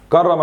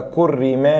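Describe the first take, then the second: First: كرم read "karrama", all a-vowels; active vowels. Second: كرم read "kurrima", u then i; passive vowels. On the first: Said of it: "حول من مبني للمعلوم لمبني". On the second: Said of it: "لمبني المجهول لمبني معلوم". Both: Shown as a demonstration.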